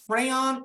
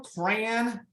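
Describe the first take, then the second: First: "crayon" as CRAY-on, two full syllables, high; presenter listing regional ways to say it, "crayon" as CRAY-on. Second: "crayon" squeezed to one syllable, sounding like cran; presenter listing regional ways to say it, "crayon" as cran. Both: Shown as a demonstration. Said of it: "all these different pronunciations".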